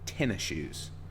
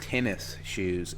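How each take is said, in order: First: The first word ends with an ee sound. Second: The first word ends with an s sound. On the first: The speaker calls it right. "It's tennis shoes. ... tenny" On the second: The speaker calls it wrong. "it's not pronounced tennis shoes"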